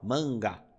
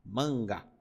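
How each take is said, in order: First: The first vowel is nasalized. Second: The same.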